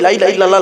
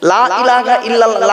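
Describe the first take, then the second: First: It is rushed, with the opening 'la' clipped short. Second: It is unhurried, with the opening 'la' drawn out. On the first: The speaker calls it wrong. "তাড়াহুড়ো করতে গিয়ে ... বলবেন না" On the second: The speaker calls it right. "লামে টান দেবেন, লয়াকারে টান দেবেন"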